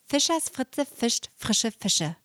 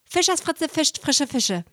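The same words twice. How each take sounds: First: The phrase is spoken at moderate speed. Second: The phrase is spoken very fast. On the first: "Ein bisschen schneller" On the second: "Und jetzt ganz, ganz schnell"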